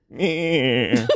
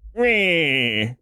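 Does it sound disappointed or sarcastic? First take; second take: disappointed; sarcastic. First: It sounds disappointed. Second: It sounds sarcastic.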